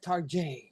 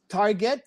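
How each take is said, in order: First: It is said with an unusual, put-on pronunciation. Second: It is said with the plain, ordinary pronunciation.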